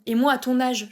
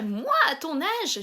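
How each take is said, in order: First: Said in the usual way. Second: Slow, lightly voiced old granny; grandma voice. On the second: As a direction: stretch out moi like a lecturing grandma. (mamie qui fait la leçon, en traînant sur « moi »)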